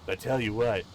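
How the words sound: It is said in a surfer-dude voice.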